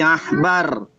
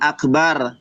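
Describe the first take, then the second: First: The middle consonant is a breathy h sound. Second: The middle consonant is a hard k sound. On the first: The speaker calls it right. "tetapi ahbar" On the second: The speaker calls it wrong. "bukan akbar"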